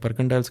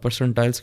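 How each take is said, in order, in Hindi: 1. बीच के अक्षर की शुरुआत K ध्वनि से होती है। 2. बीच के अक्षर की शुरुआत S ध्वनि से होती है।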